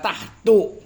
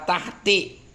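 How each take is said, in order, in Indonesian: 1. Kata ini diakhiri vokal u. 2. Kata ini diakhiri vokal i. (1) "Jangan dibaca tahtu" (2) "jangan dibaca tahti"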